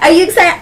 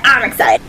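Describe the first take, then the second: First: Excited question. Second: Said in the usual way. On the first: Shown as a demonstration.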